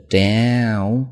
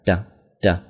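First: "down" slowly, mouth wide open, gliding diphthong with a nasal end. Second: "down，down" said as a short clipped "done", quick and forceful; short punchy done. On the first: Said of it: "双元音，嘴张大有鼻音". (嘴张大读"down"，双元音带鼻音) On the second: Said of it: "短促有力啊". (短促有力地读，像"done") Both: Shown as a demonstration.

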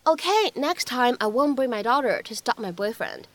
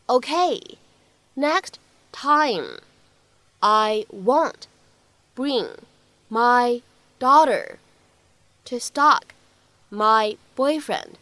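First: Said in the usual way. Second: Each word spaced out, slow; slow word-by-word drill. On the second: Shown as a demonstration. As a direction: break the line into single slow words. (逐词慢读示范) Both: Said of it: "需要注意的发音技巧".

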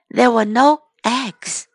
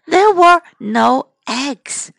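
First: Said in the usual way. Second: Slow, "there" stressed; slow modelling. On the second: Shown as a demonstration. Teacher modelling the line for children, slow. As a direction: say it slowly for repeating.

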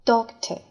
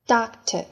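First: Doctor with a rounded British "o" sound, dok-tuh. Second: Doctor with an open American "a" sound, dahk-ter. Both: Shown as a demonstration. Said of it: "第二种读法".

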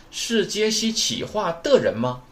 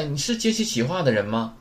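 First: Slow, high-pitched question with a rising end; deliberate teacher's translation, lifted at 吗; slow word-by-word. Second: Said in the usual way. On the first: Shown as a demonstration. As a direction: spell the translation out piece by piece.

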